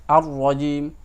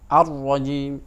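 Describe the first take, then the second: Both takes have the same delivery.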